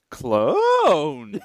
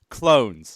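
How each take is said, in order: First: It is said with surprised, questioning excitement. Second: It is said flatly, without excitement. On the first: The speaker calls it right. "Yeah, there we go" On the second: The speaker calls it wrong. "No, no. You gotta vo- put the right intonation on it"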